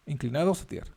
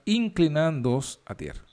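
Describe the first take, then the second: First: Inclinados said correctly as in-cli-na-dos, softer, with a rise; quiet self-correction to Inclinados; corrected word. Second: Inclinándoos read as a slip, falling at the end; first misread take of inclinándoos; misread word. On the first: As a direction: fix the slip and say Inclinados properly. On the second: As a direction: stumble over inclinándoos, reading it inclinándoos instead of inclinados. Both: Real, not acted.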